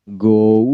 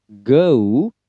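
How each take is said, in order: First: "go" with a rounded o gliding to oo; American go. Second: "go" with a central vowel gliding to oo; British go. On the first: Example of American style, go with the o diphthong. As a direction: round the vowel in "go" and draw it out. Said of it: "American go". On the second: Example of British style, go with the eu diphthong. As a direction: say "go" as g-uh-oo, drawn out. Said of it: "pada British itu go". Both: Shown as a demonstration.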